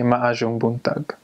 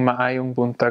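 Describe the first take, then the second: First: It is said Bohol-style, with j for y. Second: It is said with the standard y sound.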